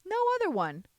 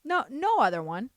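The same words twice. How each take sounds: First: "No other one" said higher and louder, with the stress on "other"; emphatic repeat. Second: Said in the usual way. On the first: Real, not acted. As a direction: hit "other" hard to drive the point home.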